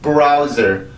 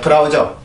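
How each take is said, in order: First: It is said with English sounds and linking. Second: It is said with Korean syllables, beu-ra-u-jeo. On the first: The speaker calls it right. "이렇게 발음이 됩니다" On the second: The speaker calls it wrong. "절대 브라우저가 아니에요"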